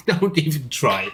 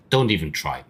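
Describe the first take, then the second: First: Higher-pitched, amused mock dismissal; lifted, laughing brush-off; laughing repeat. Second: Said in the usual way. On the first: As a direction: say it on the tail of a laugh. Repeats the line after laughing.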